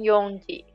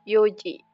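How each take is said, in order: First: An n sound comes before the ji. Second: No n sound comes before the ji. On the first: The speaker calls it wrong. "bukan yongji" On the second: The speaker calls it right. "Jadi tanpa n dia"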